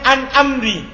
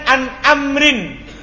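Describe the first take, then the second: First: The last word ends on a vowel. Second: The last word ends with an 'n' sound. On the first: "Tapi dia dihilangkan" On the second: "Syairnya kan an amrin"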